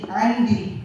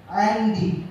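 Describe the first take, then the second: First: The first vowel is an a sound. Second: The same.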